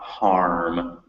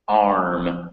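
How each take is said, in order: First: The word begins with an added h sound. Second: The word begins directly with a vowel sound. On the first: The speaker calls it wrong. "not harm" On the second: The speaker calls it right. "Arm, not harm"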